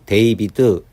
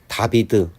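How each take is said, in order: First: The first vowel is said as 'ay'. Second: The first vowel is said as 'ah'. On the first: "알파벳 A를 A로 읽으면" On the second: "알파벳 A를 부득이 외워야 하는 아로 읽으면"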